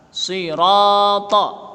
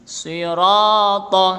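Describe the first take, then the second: Both takes have the same delivery.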